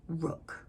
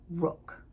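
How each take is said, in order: First: The vowel is rounded, like in 'book'. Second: The vowel is rounded, like in 'book'.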